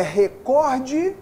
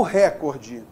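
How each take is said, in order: First: Recorde said slowly with stress on -cor-; stress question. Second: Recorde stressed on re, as if proparoxytone; wrong stress. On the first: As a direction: draw out recorde, leaning on cor. (recorde com tônica no cor) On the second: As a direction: push the first syllable of recorde. (recorde com tônica no re) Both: Shown as a demonstration. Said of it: "Eu pronuncio como é recorde ou".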